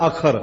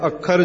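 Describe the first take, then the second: First: ਅਖਰ with one short KH; single KH. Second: ਅੱਖਰ with a held double KH; doubled KH. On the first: Preacher showing the word without adhak, ਅਖਰ with single KH. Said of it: "ਜੇ ਬਿਨਾਂ ਅਧਿਕ ਤੋਂ ਉਚਾਰਨ ਕਰੀਏ". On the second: Preacher explaining adhak to listeners, ਅੱਖਰ with doubled KH. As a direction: hold the consonant before releasing KH in ਅੱਖਰ. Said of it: "ਅਧਿਕ ਲਗਾਉਣੀ ਪੈਂਦੀ". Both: Shown as a demonstration.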